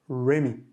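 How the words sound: The name begins with an English-style r. This is the English way of saying the name. "la prononciation à l'anglaise"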